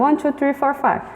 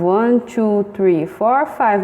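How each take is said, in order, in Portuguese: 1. Os números são contados em ritmo rápido. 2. Os números são contados em ritmo lento.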